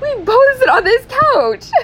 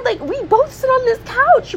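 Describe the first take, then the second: First: Slower, much higher, leaning hard on both; repeated slowly to drive the point home; stressed both. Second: Much higher, rising exasperated complaint; rising disbelief about the shared couch; mock outrage. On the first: Pretend. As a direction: spell it out, hitting both. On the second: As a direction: pitch it up like you can't believe it. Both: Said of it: "I'd be like".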